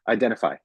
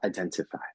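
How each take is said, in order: First: The T sound is weak and unclear. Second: The T sound is crisp and clearly pronounced. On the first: The speaker calls it wrong. "if you're not a native English speaker, you'll say identify" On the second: The speaker calls it right. "he pronunciates the T's"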